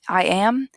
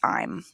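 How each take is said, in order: First: Both words are said in full. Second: The words merge into one syllable.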